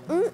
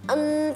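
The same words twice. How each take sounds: First: The n is blocked with the nose pinched. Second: The n hums freely through the nose. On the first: "kalau kita tutup hidungnya, ... nggak bisa melanjutkan" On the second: "gimana baca nun mati?"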